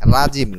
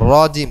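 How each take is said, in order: First: The first vowel is an open 'a' sound. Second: The first vowel is a rounded 'o' sound. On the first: The speaker calls it wrong. "রাজিম না" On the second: The speaker calls it right. "রজিম হবে"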